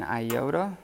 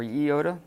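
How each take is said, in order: First: "iota" starting with an eye sound; English-style "iota", first vowel like eye; eye-OH-duh. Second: "iota" starting with an ee sound; Greek-style "iota", first vowel like see; ee-OH-tuh. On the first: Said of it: "it's better to pronounce it". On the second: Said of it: "it's better to pronounce it iota". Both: Shown as a demonstration.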